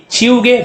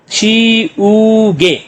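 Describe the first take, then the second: First: Said in the usual way. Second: "छी ऊ गे" very slow, three long held syllables. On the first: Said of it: "छी ऊ गे, rubber". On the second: Shown as a demonstration. Teacher blending three syllables, "छी ऊ गे" slowly separated. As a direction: sound out "छी", "ऊ", "गे" with gaps. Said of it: "तो क्या बन गया".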